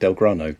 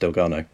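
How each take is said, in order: First: An r sound follows the g. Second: No r sound follows the g. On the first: The speaker calls it wrong. "I've been saying it wrong for the last few weeks. I think I've been saying Delgrano" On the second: The speaker calls it right. "I'm fairly sure it's Delgano"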